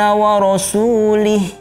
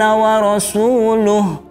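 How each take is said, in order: First: The final pronoun is said with an 'i' vowel. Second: The final pronoun is said with a 'u' vowel. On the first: God is free from the idolaters and from His messenger. The speaker calls it wrong. "Contoh yang salah seperti ini" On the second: God and His messenger are free from the idolaters. The speaker calls it right. "Sedangkan yang benar adalah wa rasuluh"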